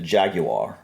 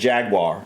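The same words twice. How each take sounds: First: Jaguar is said imitating a foreign accent. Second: Jaguar is said in the speaker's own accent. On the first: This is how people elsewhere say it. "there they pronounce it" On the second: This is how people locally say it. "Here we pronounce it"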